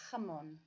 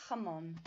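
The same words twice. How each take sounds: The two takes are said the same way.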